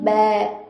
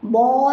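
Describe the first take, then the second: First: The vowel is a spread 'e' sound, lips smiling. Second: The vowel is an open, rounded 'aa' sound. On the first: The speaker calls it right. "जैसे हम मुस्कुराते हैं वैसा करके खींचेंगे" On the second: The speaker calls it wrong. "आ करके मुंह गोल करके नहीं खींचेंगे"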